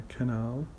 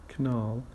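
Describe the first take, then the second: Both takes have the same delivery.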